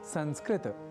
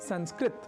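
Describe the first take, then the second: First: The word ends with a vowel after t. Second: The word ends on t with no vowel. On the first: The speaker calls it right. "त अर्थात तकार के बाद अ या आकार के प्रयोग के साथ उच्चारित करना चाहिए" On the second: The speaker calls it wrong. "संस्कृत को संस्कृत न कहकर"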